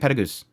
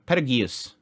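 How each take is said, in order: First: The name is said quickly with vowels squeezed. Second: Every vowel of the name is sounded out. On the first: "Just saying Petagoose very quickly" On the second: "The anime itself is Petu, Petu, um, Petagius"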